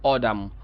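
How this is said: It is said with an American accent.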